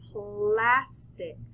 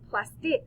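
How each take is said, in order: First: The stress is on the first syllable. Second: The stress is on the second syllable.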